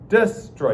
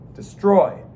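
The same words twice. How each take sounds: First: The stress is on the first syllable. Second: The stress is on the second syllable. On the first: The speaker calls it wrong. "it's so hard to say them backwards" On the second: The speaker calls it right. "You say ... destroy ... unstressed followed by a stressed"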